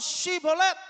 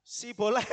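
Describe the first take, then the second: First: "Sibolet" jadi "Syibolet", lantang dan tinggi; bunyi SH di awal. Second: "Sibolet" dengan S polos, agak tinggi; bunyi S, bukan SH. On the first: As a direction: desis SH keras di awal "Sibolet". ("Sibolet" diserukan dengan awalan SY) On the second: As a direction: tiru orang Efraim, "Sibolet" tanpa SH lalu terkekeh. ("Sibolet" berawalan S tipis) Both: Acted. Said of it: "Coba ngomong".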